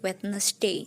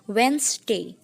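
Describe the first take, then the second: First: The word is said in full, unshortened. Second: The word is said in a shortened form. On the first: The speaker calls it wrong. "Kebanyakan juga mengucapkannya Wednesday" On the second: The speaker calls it right. "seperti ada pemendekan lagi"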